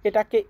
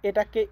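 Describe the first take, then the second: Both takes have the same delivery.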